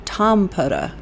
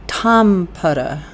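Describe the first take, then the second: First: "Tom Putta" with a firm TOM and a falling end; stress on Tom. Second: "Tom Putta" said slowly, TOM drawn out and stressed. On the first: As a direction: repeat "Tom Putta", punching the TOM. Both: Shown as a demonstration. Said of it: "Emphasis on Tom".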